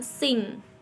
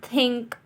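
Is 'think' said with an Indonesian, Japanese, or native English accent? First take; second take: Japanese; native English. First: It is said with a Japanese-style accent. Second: It begins with a soft th sound. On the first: The speaker calls it wrong. "Orang Jepang biasa menyebut dengan sing" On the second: The speaker calls it right. "contoh kata think dengan think"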